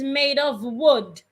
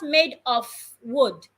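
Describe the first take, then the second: First: The word 'of' ends with a V sound. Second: The word 'of' ends with an F sound. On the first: The speaker calls it right. "the F sounds like a V of" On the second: The speaker calls it wrong. "not made of wood"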